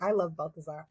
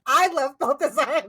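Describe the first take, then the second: First: Said in the usual way. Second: I love Balthazar, second time louder and rising; louder mock swoon. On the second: Fan swooning over Balthazar, louder. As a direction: gush it like a fan. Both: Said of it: "I was like".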